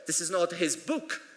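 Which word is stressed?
book. The word book carries the main stress. It is a different object. "it's his laptop"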